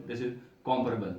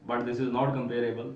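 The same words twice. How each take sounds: First: Comparable slow, stress on first syllable "COM-pa-ra-ble"; correct pronunciation. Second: Comparable said slowly as "com-PARE-able"; wrong pronunciation. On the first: Teacher to students, slowly modelling the right form. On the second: Teacher to students, slowly modelling the wrong form. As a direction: show the wrong stress in comparable. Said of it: "सारे कंपेरेबल ही हम पढ़ते रहे हैं". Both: Shown as a demonstration.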